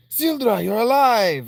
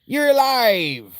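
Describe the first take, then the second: First: High, loud voicing; excited shout of relief; character voice. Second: High, loud, slow cry; slow, high and loud character cry; character impression. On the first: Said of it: "That's not what she sounds like". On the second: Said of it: "That's what she sounds like".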